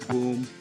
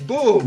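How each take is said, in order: First: The word is said flatly, without emphasis. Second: The word is said loudly, with excited energy. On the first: The speaker calls it wrong. "It's not boom" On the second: The speaker calls it right. "It's boom. / with an exclamation point"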